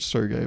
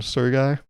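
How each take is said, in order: First: "Sergei" said like "sir gay"; requested pronunciation. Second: "Sergei" said like "sir guy"; Americanized pronunciation. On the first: Retold or imitated. Friend's own way, "Sergei" as "sir-gay". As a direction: end "Sergei" on an "ay" sound. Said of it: "He said to pronounce it". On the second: Shown as a demonstration. American misnaming a Russian friend, "Sergei" as "sir-guy". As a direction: end "Sergei" on an "eye" sound. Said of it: "He said to pronounce it Sergei".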